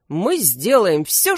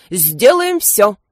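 First: Steady, firm detective's promise. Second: Louder, slow eager assistant's echo. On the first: Detective reassuring the king, firm promise. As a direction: promise it calmly and firmly. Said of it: "твёрдо произнёс Эклер Пуадро". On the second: Assistant echoing his boss, eager louder echo. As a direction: repeat the boss's promise with zeal. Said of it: "повторил Крембо". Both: A narrator's reading.

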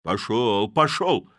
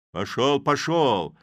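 First: Loud "Пошёл, пошёл!" shoved out; shout. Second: Loud "Пошёл, пошёл!", the second falling; shout. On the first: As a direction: yell him off. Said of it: "кричал кузнец". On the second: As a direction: slam the door on him with a yell. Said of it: "закричал кузнец". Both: A narrator's reading.

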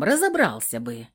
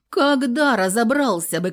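First: Said in the usual way. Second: Когда punched high and loud; когда louder and higher; stressed когда. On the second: A narrator's reading. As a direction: hit когда hard against разобрался. Heroine stresses when.

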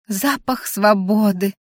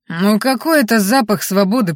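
First: Slow, savouring delight; rapturous admiration. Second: Brisk, dismissive retort to a friend; scoffing. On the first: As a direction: draw out «Запах свободы» in dreamy rapture. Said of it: "восхитилась она". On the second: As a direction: brush off «запах свободы» as nothing. Orc friend scoffs at the rapture. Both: A narrator's reading.

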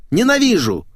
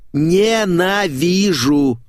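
First: Higher and louder still, spat out fast; exploding in hatred; hateful outburst. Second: Drawn out slowly, higher and louder, seething; slow seething hatred; hateful growl. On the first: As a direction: blurt it out as the hatred boils over. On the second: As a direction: stretch the word out like you can barely stand her. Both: Acted. Critic rants about rival writer.

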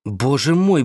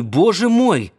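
First: A first, held-back Боже мой, said with mild fear; Боже мой at normal height and level, fear just starting; lightly scared, not yet crying out; frightened. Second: Боже мой thrown up high and louder, falling on мой; the frightened man's fear bursting out; panicked cry. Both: A narrator's reading. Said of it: "Перепуганный, дрожащий".

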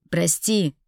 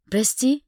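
First: Understated yell, firm and falling; restrained shout of apology. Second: High, loud rising question; indignant questioning repeat; incredulous echo. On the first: A narrator's reading. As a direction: blurt the apology forcefully. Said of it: "заорал он". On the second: Acted. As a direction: throw the word back in disbelief. Throws his apology back at him.

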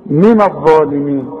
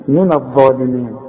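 First: من الظالمين with NA darkened before DHA; wrong heavy noon. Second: من الظالمين lower, thin NA before heavy DHA; light noon. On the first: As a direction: thicken the ن of من. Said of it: "اما لاحظ في فرق؟". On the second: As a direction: keep the ن of من light. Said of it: "في النون". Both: Shown as a demonstration.

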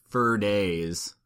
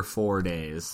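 First: Said in the usual way. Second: "four" with a full vowel, unreduced; clarifying the number. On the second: Real, not acted. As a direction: say "four" as a full, clear word. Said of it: "no, the number four days".

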